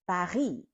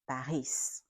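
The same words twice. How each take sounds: First: The final S sound is silent. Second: The final S sound is pronounced. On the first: The speaker calls it right. "in French we say Paris" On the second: The speaker calls it wrong. "We don't say Paris"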